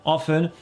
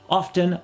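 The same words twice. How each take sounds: No difference in how they are said.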